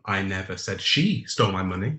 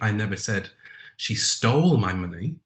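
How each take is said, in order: First: The stress is on the word she. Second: The stress is on the word stole.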